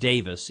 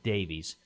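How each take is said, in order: First: The name is said like 'Davis'. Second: The name is said like 'Davies'. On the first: This is how the owner of the name said it. The speaker calls it right. "but it was pronounced Davis" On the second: This is how everyone else said it. The speaker calls it wrong. "everybody during his life pronounced it Davies"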